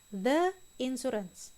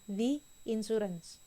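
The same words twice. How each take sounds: First: 'The' is said with a short uh vowel. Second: 'The' is said with a long ee vowel. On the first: The speaker calls it wrong. "Bukan the insurance" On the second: The speaker calls it right. "Dibaca the. Seperti ini"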